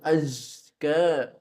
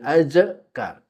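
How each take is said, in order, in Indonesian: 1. Bunyi z halus, tanpa pantulan. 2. Bunyi z dipantulkan dengan gema.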